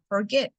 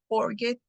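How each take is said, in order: First: The stress is on the second syllable. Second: The stress is on the first syllable. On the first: The speaker calls it right. "el stress está en la última sílaba" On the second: The speaker calls it wrong. "no digo forget"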